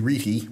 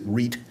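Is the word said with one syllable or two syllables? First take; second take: two; one. First: The word is said with two syllables. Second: The word is said with one syllable. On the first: It follows the Latin. The speaker calls it wrong. "if you're going to look at the Latin, it's supposed to be reti" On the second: It follows common usage. The speaker calls it right. "Most people seem to pronounce it reet"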